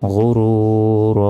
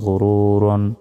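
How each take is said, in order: First: The word ends without any 'n' sound. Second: The word ends with an added 'n' sound. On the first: The reader stops at this word. "থামলে" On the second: The reading continues without stopping. "র দুই জবর রন"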